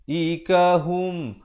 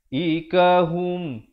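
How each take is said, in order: Both takes have the same delivery.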